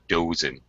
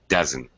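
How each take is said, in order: First: The first vowel is a long O sound. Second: The first vowel is a short schwa sound. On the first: The speaker calls it wrong. "not a long O, not dozen" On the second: The speaker calls it right. "It's the kind of schwa sound"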